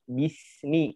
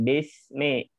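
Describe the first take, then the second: First: The vowels are clear 'i' sounds. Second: The vowels sound like 'e'. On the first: The speaker calls it right. "Jadi bismi" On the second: The speaker calls it wrong. "bukan besme"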